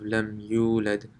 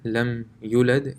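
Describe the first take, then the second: First: The vowel after the y is long. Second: The vowel after the y is short. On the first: The speaker calls it right. "There's a waw here" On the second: The speaker calls it wrong. "to remove a letter from a word"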